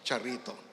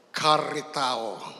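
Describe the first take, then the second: First: It starts with a ch sound and ends in -to. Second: It starts with a k sound and ends in -tao. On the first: "Kasi nasanay na po tayo doon sa chat-charito eh" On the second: "Yun po ang ah, original Greek"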